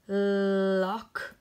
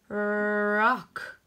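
First: "lock" said clearly with a crisp L at the start; teacher stresses the L in "lock" for the class. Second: "rock" said clearly with a rolled-in R at the start; teacher stresses the R in "rock" for the class. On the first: Teacher to pupils, sounding out "lock" with a clear L. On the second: Teacher to pupils, sounding out "rock" with a clear R. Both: Shown as a demonstration. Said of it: "Do you hear the difference?".

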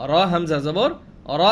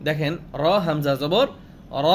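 First: র হামজা জবর র joined, the hamza stopped with a light jolt; the sound cut off with a light push on হামজা, thin and crisp; qalqala bounce. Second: Said in the usual way. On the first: Shown as a demonstration. Teacher shows qalqala on hamza to students, jolted and thin. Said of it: "ধাক্কাও দিয়েছি এবং পাতলাও হয়েছে". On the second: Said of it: "ধাক্কাও দিয়েছি".

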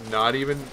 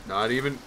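The two takes are said the same way.

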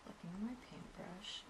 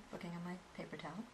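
First: Said in the usual way. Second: Quick whispered aside. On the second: Real, not acted. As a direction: whisper it fast, under your breath. Checking towel while painting.

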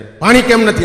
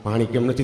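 First: Barked high and loud at the household; angry shout. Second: Said in the usual way. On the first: Retold or imitated. Retired army man shouting at his wife for water. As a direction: yell it like a hot-tempered ex-soldier. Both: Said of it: "રાડા રાડ કરો માં તમે".

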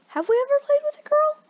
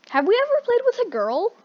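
First: Very high squeaky question. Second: High-pitched sing-song question. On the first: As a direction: go even higher and squeakier. Repeat in even higher voice. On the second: Line repeated, higher voice. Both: Acted.

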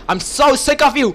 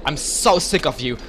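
First: Louder and higher, fed up; angry. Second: Said in the usual way. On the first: Real, not acted. Gamer fed up with an annoying enemy player, angry. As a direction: snap it at him, finally done.

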